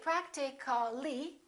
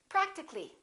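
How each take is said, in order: First: The middle vowel is fully pronounced. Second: The middle vowel is dropped. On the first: The speaker calls it wrong. "We don't say practically" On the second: The speaker calls it right. "We drop the A"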